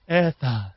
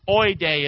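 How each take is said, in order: First: The word begins with an 'eh' sound. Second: The word begins with an 'oy' sound. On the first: This is how a Greek-reading expert says it. "But she says it's Edda" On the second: This is a rural, homespun way of saying it. "Oide is how I would say it because I'm like from the country"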